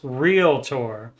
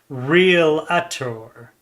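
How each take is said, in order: First: No extra vowel sound follows the L. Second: An extra vowel sound follows the L. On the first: The speaker calls it right. "So it's realtor" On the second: The speaker calls it wrong. "it does not have an A after the L, so it's not realtor"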